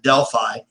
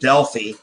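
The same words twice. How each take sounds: First: The name gets the local small-town pronunciation. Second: The name gets the standard, original pronunciation. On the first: This is how the locals say it. The speaker calls it wrong. "We pronounce it Delphi" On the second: This is the original way to say it. The speaker calls it right. "instead of Delphi"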